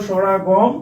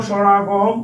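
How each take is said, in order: The two takes are said the same way.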